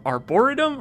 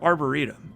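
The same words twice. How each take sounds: First: Arboretum with the stress on BOR. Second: Arboretum with the stress on REE. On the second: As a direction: say arboretum as ar-bor-EE-tum. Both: Shown as a demonstration. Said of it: "which syllable you put the emphasis on".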